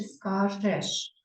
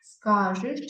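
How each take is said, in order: First: "скажеш" drawn out with final еш; clear е vowel. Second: "Скажеш" drawn out as скажИш; и instead of е. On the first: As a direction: slowly sound the open е in "скажеш". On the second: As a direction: slowly put и in the ending of "Скажеш". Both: Shown as a demonstration. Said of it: "Ми напишемо букву".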